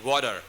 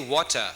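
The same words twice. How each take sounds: First: The t sounds like a soft d. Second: The t is a clear, crisp t. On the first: The speaker calls it wrong. "it sounds like a D, water. That's American" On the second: The speaker calls it right. "But when you say water, can I have a glass of water? That's British"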